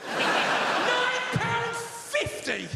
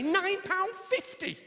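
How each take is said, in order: First: Very slow, high, louder outraged question; appalled disbelief. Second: High, slow, stretched price; outraged disbelief. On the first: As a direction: stretch every word in mock horror. Repeated price, very drawn out. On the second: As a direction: drag it out in scandalised disbelief. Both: Acted.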